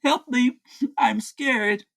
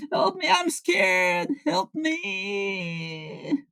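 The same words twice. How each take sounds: First: Offhand fake plea between bites; mock scared. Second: High crying plea for help; terrified. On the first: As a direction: toss off a half-hearted cry for help. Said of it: "He is screaming help and I'm scared". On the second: Pretend. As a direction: sob it out in high panic. [name] pretends terror of hamburgers.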